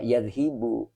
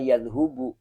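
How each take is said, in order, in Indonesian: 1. Vokal setelah 'dh' adalah i. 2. Vokal setelah 'dh' adalah u. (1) "Tidak boleh" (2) "tidak boleh juga"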